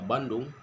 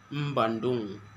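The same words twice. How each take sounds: First: It is said in a standard Indonesian accent. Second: It is said in a Javanese-influenced accent.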